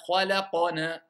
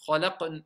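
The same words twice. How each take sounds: First: Khalaqna with a heavy, exaggerated bounce on the qaf; overdone qalqala. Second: Khalaqna with only a light, brief echo on the qaf; touch the qaf in Khalaqna just a little; small qalqala. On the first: Teacher mocking the exaggerated way, big heavy qaf echo. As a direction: slam the qaf in khalaqna too hard on purpose. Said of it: "J'ai pas besoin de faire khalaqna". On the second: Teacher showing the correct light echo for mid-word qaf. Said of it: "Juste un peu". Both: Shown as a demonstration.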